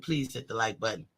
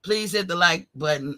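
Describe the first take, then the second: First: It is said in a very humble voice. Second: It is said in an ordinary voice.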